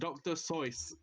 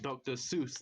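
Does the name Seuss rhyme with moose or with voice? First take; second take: voice; moose. First: The name rhymes with the word voice. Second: The name rhymes with the word moose. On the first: "that rhymes with voice" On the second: "rhymes with something else"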